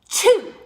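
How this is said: The lips round, giving a darker vowel. The speaker calls it wrong. "We're not doing chew"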